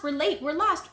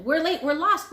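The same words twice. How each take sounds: First: Yelling. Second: High loud cry of late and lost; yelling. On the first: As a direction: keep calling out. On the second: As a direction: call out frantic. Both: A narrator's reading.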